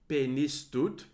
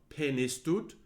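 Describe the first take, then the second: The two takes are said the same way.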